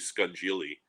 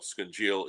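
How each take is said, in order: First: It is said the way it is spelled. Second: It is said differently from its spelling. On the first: "if we were to spell it out and read it, it would be scungili" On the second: "I know scungeel"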